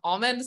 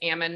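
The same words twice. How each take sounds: First: It uses the other, more general pronunciation. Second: It uses the Northern California farm pronunciation. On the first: This is not how local farmers say the word. "not almond" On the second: This is how local farmers say the word. "most Northern California farmers pronounce it as almond"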